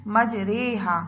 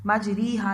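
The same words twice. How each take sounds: First: मजरेहा with a short e sound, not ई; correct pronunciation. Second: मजरीहा with a long ई, the wrong way; wrong pronunciation. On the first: Teacher showing children the right way: मजरेहा with e. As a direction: say मजरेहा, the middle vowel as e. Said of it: "इस लफ्ज़ का तलफ़ुज़ जो है हम इसकी अदायगी कैसे करेंगे". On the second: Teacher showing children the wrong reading: मजरीहा with ee. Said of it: "मजरीहा नहीं है". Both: Shown as a demonstration.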